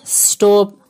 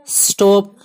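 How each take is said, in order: Both takes have the same delivery.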